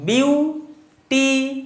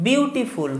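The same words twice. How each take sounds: First: beautiful split into three slow beats, বিউ, টি, ফুল, with gaps; syllable by syllable. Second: Said in the usual way. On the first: Shown as a demonstration. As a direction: break beautiful apart to count its syllables. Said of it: "কটা syllable আছে বিউটিফুলের মধ্যে". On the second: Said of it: "কটা syllable".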